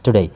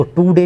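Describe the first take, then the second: First: "टुडे" as one word with a short, light first syllable; joined-up pronunciation. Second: "टू डे" as two separate words, long "too" then "day"; split mispronunciation. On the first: Teacher showing today as one word, "टुडे" said joined up. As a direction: run "टुडे" together, quick "tu" into "day". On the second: Teacher showing how not to read today, "टू डे" split in two. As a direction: break "टू डे" apart with a full oo in the first word. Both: Shown as a demonstration. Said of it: "इसको टू डे नहीं पढ़ेंगे".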